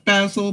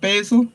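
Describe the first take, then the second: First: It is said with a British pronunciation. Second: It is said with an American pronunciation. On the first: "In England, we call it basil" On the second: "in America you call it basil"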